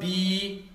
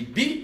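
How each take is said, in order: First: The vowel is drawn out long. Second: The vowel is short and clipped. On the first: The speaker calls it wrong. "je ne dis pas" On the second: The speaker calls it right. "ça c'est des voyelles courtes"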